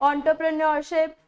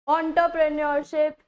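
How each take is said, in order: Both takes have the same delivery.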